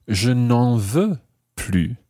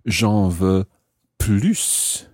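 First: Slow "je n'en veux plus", no S on "plus"; silent final S. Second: "plus" set apart, ending in a clear S; sounded final S. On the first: Teacher explaining "no more", slowly, "plus" with silent S. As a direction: end "plus" on its vowel, S silent. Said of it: "when you don't pronounce the S". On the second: Teacher explaining "I want more", "plus" with the S sounded. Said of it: "when you pronounce the S of plus". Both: Shown as a demonstration.

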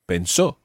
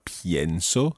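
First: Pensó with plain e and stressed final só; stress on last syllable. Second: Pienso with stressed IE in pien; stress on first syllable. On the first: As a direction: say pen-SO for pensó. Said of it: "because the stressed syllable isn't the syllable that's going to change". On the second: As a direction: say PYEN-so for pienso. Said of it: "displaying the radical change". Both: Shown as a demonstration.

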